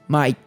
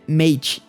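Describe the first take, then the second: First: It is said with an Australian accent. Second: It is said with an American accent. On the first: "uma gíria muito usada deles" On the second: "em inglês dos Estados Unidos"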